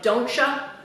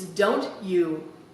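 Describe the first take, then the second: First: You is reduced to a short ya. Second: The t and you are both said clearly. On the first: The speaker calls it wrong. "the worst enunciation problems of all" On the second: The speaker calls it right. "Make sure you get the T and the U"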